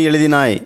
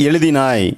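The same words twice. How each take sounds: The two takes are said the same way.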